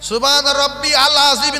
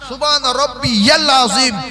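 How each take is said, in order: First: No 'y' sound joins 'rabbi' and 'al'. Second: A 'y' sound joins 'rabbi' and 'al'. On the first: The speaker calls it wrong. "না" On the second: The speaker calls it right. "ইয়াল বলবেন"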